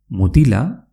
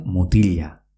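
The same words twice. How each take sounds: First: Said in the usual way. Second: "mutilla" as mutilya; L as elle. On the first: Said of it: "que se escribe M U T I L A". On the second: Shown as a demonstration. Teacher shows dialect pronunciation, L after I as ly. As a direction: say "mutilla" with a palatal ly. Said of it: "como si fuese una elle".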